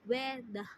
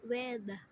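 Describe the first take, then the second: First: The final R sound is dropped. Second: The final R sound is dropped.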